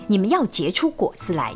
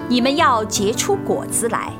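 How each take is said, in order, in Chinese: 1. 一口气非常快地读完。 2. 以正常、平稳的语速朗读。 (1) "非常快速地把经文一口气诵读" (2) "用正常速度诵读一遍"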